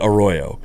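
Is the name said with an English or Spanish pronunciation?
English. It is said with an English-style pronunciation.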